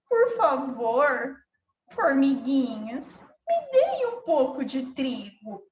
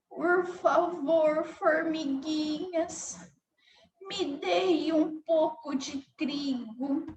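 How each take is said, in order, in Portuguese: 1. A voz soa triste e abatida. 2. A voz soa fraca e débil. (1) "Se ela tivesse com tristeza" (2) "se a formiguinha estivesse com fraqueza"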